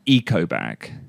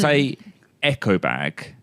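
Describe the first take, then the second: First: The first vowel sounds like 'ee', English style. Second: The first vowel sounds like 'eh', Japanese style. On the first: The speaker calls it right. "We would say eco bag" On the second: The speaker calls it wrong. "we wouldn't say echo bag"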